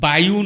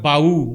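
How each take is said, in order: First: A 'y' glide is heard before the final vowel. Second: No glide is heard before the final vowel. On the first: The speaker calls it wrong. "বায়ু নকয়" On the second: The speaker calls it right.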